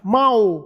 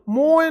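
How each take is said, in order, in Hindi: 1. नाम 'Mao' की तरह बोला जाता है। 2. नाम 'Moye' की तरह बोला जाता है। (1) "यहां माओ बोला जाता है" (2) "मोए नहीं"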